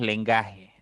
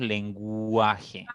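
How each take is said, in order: First: "lengaje" said without the U sound, as /lenɡaxe/; "lengaje" with a silent U, the mistake to avoid; "lengaje" pronunciado sin la U; wrong pronunciation. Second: "lenguaje" said slowly with the U clearly sounded, /lenɡwaxe/; slow "lenguaje" that lets the U be heard; "lenguaje" lento, con la U bien marcada; correct pronunciation. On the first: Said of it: "No decimos lengaje". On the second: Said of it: "decimos lenguaje". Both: Shown as a demonstration.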